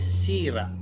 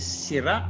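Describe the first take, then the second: First: The stress is on the first syllable. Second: The stress is on the last syllable. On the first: "So the accent here is on the first syllable, the second to the last" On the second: "This one is the circumflex, so the accent is in the last syllable with the glottal stop"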